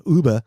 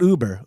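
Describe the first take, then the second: First: "Uber" with a German-style open ending, no r; corrected Uber. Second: "Uber" said without the umlaut, ending in an English r; wrong Uber. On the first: Host showing the word his friend meant, German-style "Uber". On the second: Host showing the word he was told not to use, mispronounced "Uber". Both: Shown as a demonstration. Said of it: "not Uber".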